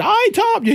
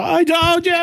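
First: Squealed high in triumph; gleeful I told you. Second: High shouted gloat; triumphant shout. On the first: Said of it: "then she said". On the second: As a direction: yell it up high to rub it in. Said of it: "You hear me go". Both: Retold or imitated.

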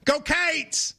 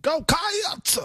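First: "Cates" with a long ay vowel, called out higher; Kentucky fan cheer, Go Cates. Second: "Cats" split into kai-ahts, called out much higher; two-syllable Cats. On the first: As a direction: cheer it with "Cates" rhyming with gates. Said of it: "in Kentucky would go". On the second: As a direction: cheer with "Cats" stretched into two vowels. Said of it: "You're adding a syllable". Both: Shown as a demonstration.

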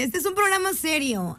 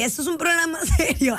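First: Composed, straight-faced "programa serio"; mock-serious. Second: Fast, a laugh cracks the word programa; laughing, can't be serious. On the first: Shown as a demonstration. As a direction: pull yourself together and say it straight. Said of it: "Ya, [name]". (seria a la fuerza, conteniendo la risa) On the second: Real, not acted. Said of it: "Seria, [name]". (intenta ponerse seria y se ríe)

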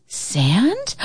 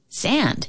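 First: Sand with a rising question tune. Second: Sand falling, quiet and soft; flat thought. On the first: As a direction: ask Sand, voice lifting up. Joey realises, questioning. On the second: Joey thinks to himself. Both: A narrator's reading.

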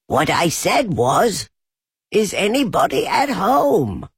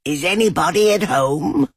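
First: Loud, higher repeat of Is anybody at home; very loud call. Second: Higher, louder call into a hole; higher call of Is anybody at home. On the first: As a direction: call it out much louder this time. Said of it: "called out Pooh very loudly". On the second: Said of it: "and called out". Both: A narrator's reading.

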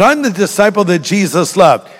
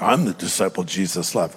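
First: Said in the usual way. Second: Low, soft mock bragging; mock boastful. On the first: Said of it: "Not at all". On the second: Preacher showing how John's words could be misread, mock boastful. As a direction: put on a quiet, lower self-important aside. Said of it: "That almost might sound boastful".

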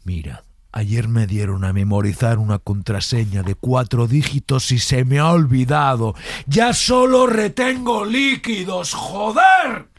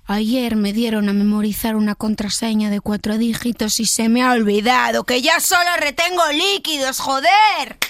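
First: Building to angry. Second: Rising to a louder joder; building to angry. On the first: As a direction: start calm, explode on joder. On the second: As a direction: start calm, blow up at the end. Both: Shown as a demonstration. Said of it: "del susurrado al enfadado".

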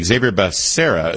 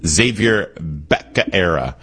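First: Said in the usual way. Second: Slow "Xavier Becerra" with Becerra said like "Bacaera", pe-ka-ERA; Biden's mispronunciation. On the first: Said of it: "lots of different pronunciations". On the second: Retold or imitated. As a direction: imitate Biden slowly mangling "Becerra" as "Bacaera". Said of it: "I think Joe Biden called him".

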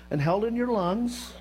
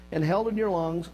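First: "held in your lungs" with a knowing lift on "your"; knowing punchline. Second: Said in the usual way. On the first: Shown as a demonstration. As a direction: land "and held in your lungs" as a pointed joke, a slight rise on "your". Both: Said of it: "unlike Clinton".

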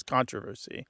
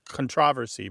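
First: "controversy" as CON-troversy, front-stressed; stress on first syllable. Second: "controversy" as con-TROV-ersy; stress on second syllable. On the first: Host contrasts UK and US forms, "controversy" stressed on CON. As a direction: hit the opening CON of "controversy". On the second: Host contrasts UK and US forms, "controversy" stressed on TROV. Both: Shown as a demonstration. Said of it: "has a U K U S divide".

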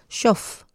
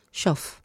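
First: Shof, clear sh onset; sh sound. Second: Shof said softly, sh then f; Shof, quiet demo; quiet model. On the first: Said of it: "como una F". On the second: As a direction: softly repeat Shof for the sound. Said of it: "estoy hablando del sonido". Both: Shown as a demonstration.

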